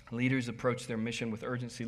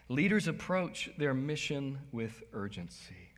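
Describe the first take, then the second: First: Said in the usual way. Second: Slow emphatic. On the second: Shown as a demonstration.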